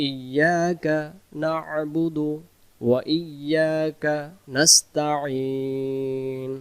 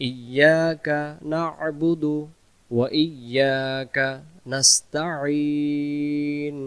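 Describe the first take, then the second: Both takes have the same delivery.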